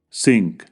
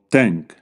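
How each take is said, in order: First: The word starts with an s sound. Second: The word starts with a t sound. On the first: "los sustituyen por sonidos similares en español, como s" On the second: "o t"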